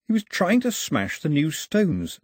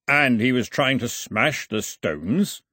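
First: Said in the usual way. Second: Slow, disbelieving question rising at the end; puzzled question. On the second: A narrator's reading. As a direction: ask it slowly, not believing it. Milo asks, puzzled.

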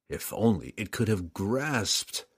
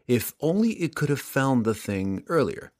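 First: A regretful slowed echo. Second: Said in the usual way. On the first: A narrator's reading. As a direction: let the repeat slow and fall away.

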